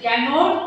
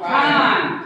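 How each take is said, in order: First: It is said in full with two syllables. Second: It is said as one contracted syllable. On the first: The speaker calls it wrong. "ক্যান নট বলে না" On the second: The speaker calls it right. "সে বলে কি ... কান্ট"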